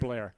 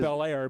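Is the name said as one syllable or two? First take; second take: one; two. First: The name is run together into one syllable. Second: The name is said as two separate syllables. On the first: This is how locals actually say it. "everybody pronounces it Blair" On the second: This is how the name is spelled. "it's spelled Bel Air"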